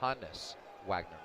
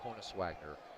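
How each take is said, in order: First: The first name begins with an open 'hah' sound. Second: The first name begins with a 'hoe' sound. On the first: The speaker calls it right. "it is Hannes Wagner" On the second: The speaker calls it wrong. "not Honus Wagner"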